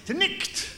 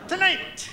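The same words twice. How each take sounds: First: "tonight" as "tonicht", short i and throaty ch; Scottish "tonight" with a guttural ch before the t; Scots pronunciation. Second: Said in the usual way. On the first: Acted. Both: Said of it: "some Scottish poetry".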